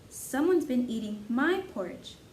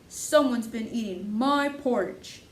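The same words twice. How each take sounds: First: It is said in a medium-sized voice. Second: It is said in a big, deep voice.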